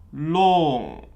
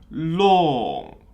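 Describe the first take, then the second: The two takes are said the same way.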